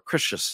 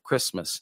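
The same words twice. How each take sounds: First: The word is said with distorted, garbled sounds. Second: The word is said with its normal sounds. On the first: The speaker calls it wrong. "or Christmas instead of Christmas" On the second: The speaker calls it right. "instead of Christmas"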